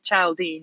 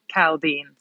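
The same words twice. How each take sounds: First: The name begins with a CH sound. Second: The name begins with a K sound. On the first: The speaker calls it wrong. "you don't say Chaldean" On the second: The speaker calls it right. "You say Chaldean"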